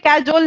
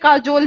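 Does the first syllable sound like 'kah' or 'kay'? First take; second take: kay; kah. First: The first syllable sounds like 'kay'. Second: The first syllable sounds like 'kah'. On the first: The speaker calls it wrong. "इसे कैजोल नहीं" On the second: The speaker calls it right. "इसे काजोल ही बोलते हैं"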